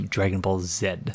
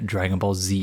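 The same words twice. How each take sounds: First: The final letter is pronounced 'zed'. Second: The final letter is pronounced 'zee'. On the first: This is the speaker's usual Canadian letter name. "as opposed to Dragon Ball Z" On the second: This is the title as the show itself says it. "I've always sort of said Dragon Ball Z"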